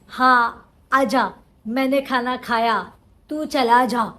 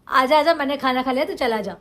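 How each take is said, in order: First: Each short line gets its own separate emotion. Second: The lines flow together with one steady emotion. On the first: Each line is acted as a separate meaning. The speaker calls it wrong. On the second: The lines are acted as one connected thought. The speaker calls it right.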